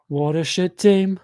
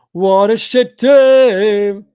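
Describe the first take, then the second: First: Said in the usual way. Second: Drawn-out yell. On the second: Real, not acted. Frustrated fan repeats it louder.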